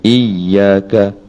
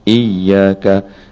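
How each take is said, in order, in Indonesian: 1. Bunyi y ditahan, dobel. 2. Bunyi y ditahan, dobel.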